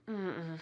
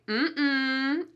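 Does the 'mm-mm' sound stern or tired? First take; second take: tired; stern. First: It sounds weary and low in energy. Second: It sounds firm and authoritative. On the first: The speaker is too tired to accept. "you're using that sound to express your tiredness" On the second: A person in authority is forbidding something. "with a slightly different intonation, we use this to say no to children"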